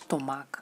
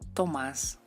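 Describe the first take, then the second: First: The word ends in a K sound. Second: The word ends in an S sound. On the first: The speaker calls it wrong. "No es tomac" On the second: The speaker calls it right. "es Tomás"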